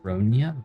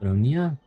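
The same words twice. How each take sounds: First: The name ends with a 'ya' sound. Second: The same.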